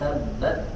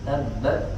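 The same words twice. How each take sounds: First: The t is released with only a light breath. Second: The t is released with only a light breath.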